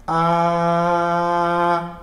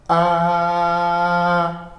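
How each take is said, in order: First: The pitch stays high and level throughout. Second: The same.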